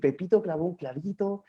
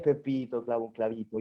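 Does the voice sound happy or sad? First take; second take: happy; sad. First: It is said in a happy, cheerful tone. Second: It is said in a sad, gloomy tone. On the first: It tells a happy story. "contaba la historia alegre" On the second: It tells a sad story. "la historia triste es"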